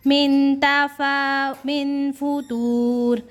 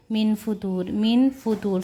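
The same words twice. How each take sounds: First: Slow, high, drawn-out Quranic chant; chanted recitation, higher and slow. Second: Said in the usual way. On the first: Shown as a demonstration. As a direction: intone each word slowly with tajweed. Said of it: "Quran recitation demo". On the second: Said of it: "spoken drill".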